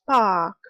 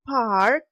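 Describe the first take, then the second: First: The r sound after the vowel is dropped. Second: The r sound after the vowel is pronounced. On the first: "is pronounced as park in Britain" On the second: "the American park"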